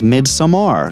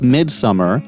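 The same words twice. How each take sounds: First: The ending has an open 'mar' sound. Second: The ending sounds like the English word summer. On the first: The speaker calls it right. "his pronunciation was Midsummer ... Makes sense with that A at the end" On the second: The speaker calls it wrong. "for the longest time, I was calling this Midsummer"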